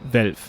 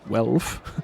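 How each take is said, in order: First: The name starts with a German v sound. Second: The name starts with an English w sound.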